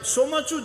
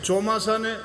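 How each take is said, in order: First: It has a ch sound before the end. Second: It has an s sound before the end.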